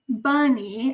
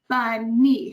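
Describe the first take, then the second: First: The stress falls on the first syllable only. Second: Both syllables are stressed equally and pushed hard. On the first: The speaker calls it right. "stress the first syllable" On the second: The speaker calls it wrong. "so it's got equal stress"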